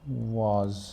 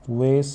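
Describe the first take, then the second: First: It is said in a British accent. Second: It is said in an American accent. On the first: "ये तो है British pronunciation" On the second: "वेस American pronunciation है"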